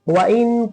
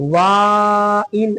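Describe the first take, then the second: First: The first vowel is said quickly and short. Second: The first vowel is drawn out long. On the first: The speaker calls it right. "वाऊ को जल्दी वाह पढ़ेंगे" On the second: The speaker calls it wrong. "ऐसे नहीं पढ़ेंगे"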